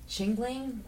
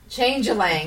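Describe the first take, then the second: First: The first syllable sounds like 'ching'. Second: The first syllable sounds like 'change'. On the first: The speaker calls it wrong. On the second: The speaker calls it right.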